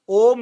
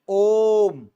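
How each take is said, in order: First: The vowel is said short, not prolonged. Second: The vowel is drawn out to three beats. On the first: The speaker calls it wrong. "ओम नहीं" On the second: The speaker calls it right. "तीन मात्रा होती है"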